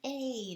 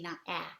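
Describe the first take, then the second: First: The vowel is long, like the letter name. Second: The vowel is short, not the letter name. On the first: The speaker calls it right. "The E is just telling the vowel to say its name" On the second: The speaker calls it wrong.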